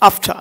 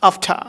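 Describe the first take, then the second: First: It is said with a polished pronunciation. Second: The same.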